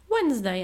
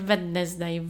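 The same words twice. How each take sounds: First: The d sound is not pronounced. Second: The d sound is pronounced. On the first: The speaker calls it right. "Środa, Wednesday" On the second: The speaker calls it wrong. "a nie Wednesday. No to jest nawet mi ciężko wymówić"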